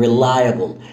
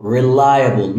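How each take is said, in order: First: Reliable said wrong, slow and drawn out; mispronounced reliable. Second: Said in the usual way. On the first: Shown as a demonstration. Teacher showing the wrong way to say reliable. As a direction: show the wrong way, reliable stretched slowly. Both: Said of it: "مش في نطق تاني غلط".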